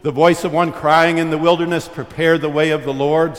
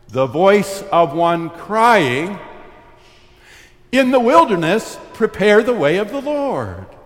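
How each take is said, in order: First: The pause comes after the word wilderness. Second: The pause comes after the word crying.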